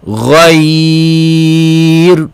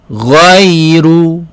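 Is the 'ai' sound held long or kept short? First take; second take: long; short. First: The 'ai' sound is held long at the stop. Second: The 'ai' sound is short and flows on. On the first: The reading stops on this word. "kalau waqaf ghair ghair" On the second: The reading continues without stopping. "contoh ghairu ghairu"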